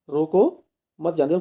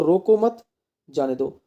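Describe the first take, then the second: First: "रोको" alone, a stop, then "मत जाने दो" together; pause after रोको. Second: "रोको मत" run together, a stop, then "जाने दो"; pause after मत. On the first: Teacher showing students the comma's meaning, clear pause after "रोको". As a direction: break after "रोको" so it means stop them. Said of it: "किसी को हम रोक रहे हैं". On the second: Teacher moving the comma for students, clear pause after "मत". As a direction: break after "मत" so it means let them go. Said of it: "अगर मैं यहाँ लगा दूँ तो". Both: Shown as a demonstration.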